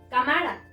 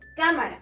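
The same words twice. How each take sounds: First: The stress is on the middle syllable. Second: The stress is on the first syllable. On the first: The speaker calls it wrong. "Si está aquí" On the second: The speaker calls it right. "Aquí"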